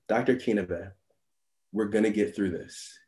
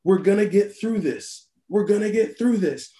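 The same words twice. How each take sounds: First: Low and soft, steady as a seasoned nurse; calm reassurance. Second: Higher, fired-up repeat of the nurse's words; pumped-up echo. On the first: Veteran nurse steadying a rookie doctor, softly reassuring. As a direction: settle a panicking colleague gently. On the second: Nervous doctor psyching himself up, hyped and energized. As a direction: say it like Popeye after the spinach. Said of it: "like the hero gets his spinach". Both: Retold or imitated.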